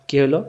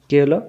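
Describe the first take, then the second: The two takes are said the same way.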